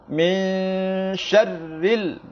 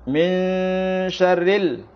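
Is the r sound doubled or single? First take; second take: doubled; single. First: The r sound is held and doubled. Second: The r sound is short and single. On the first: The speaker calls it right. "ditekankan karena ada huruf ra yang bertasydid" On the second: The speaker calls it wrong. "kurang mentasydidkan huruf ra"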